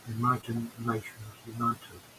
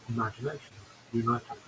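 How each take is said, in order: First: It is said slowly as three separate words. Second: It is said quickly with the words run together. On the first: "That's actually three words" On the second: "if you say it quickly"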